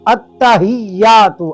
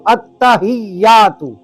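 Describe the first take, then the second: The two takes are said the same way.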